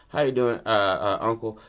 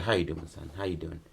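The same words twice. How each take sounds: First: Said in the usual way. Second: Low, hushed hello to son; acted gentle greeting, dropping away quieter; soft greeting. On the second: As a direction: murmur it low, as to a child. Acts man greeting son, touching face.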